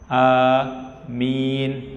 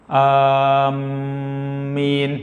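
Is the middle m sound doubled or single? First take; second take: single; doubled. First: Long vowels with a single, short m sound. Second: The m sound is doubled and held longer. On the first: O Lord, grant our prayer. The speaker calls it right. "a-nya panjang, mi-nya juga panjang" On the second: People who intend or head toward something. The speaker calls it wrong. "mimnya di tasydid, salah"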